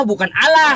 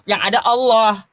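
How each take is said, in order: First: "Allah" dibaca "ala" dengan a terang; Allah dibaca biasa. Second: "Allah" dibaca "oloh" dengan o tebal. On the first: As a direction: ucapkan "Allah" sebagai "ala". ("Allah" dengan a datar, bukan o) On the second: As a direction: ucapkan "Allah" sebagai "oloh". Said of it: "maka bacanya Allah". ("Allah" dibaca "oloh" dengan o bulat) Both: Shown as a demonstration.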